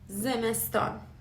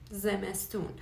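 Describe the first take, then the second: First: The last syllable has the vowel 'a'. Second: The last syllable has the vowel 'oo'. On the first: It is the formal way to say it. "it's the formal pronunciation" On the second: It is the everyday way to say it. "The colloquial one is"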